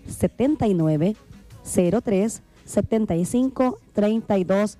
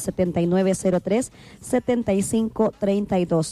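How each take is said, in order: First: The number is said slowly. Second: The number is said at normal speed.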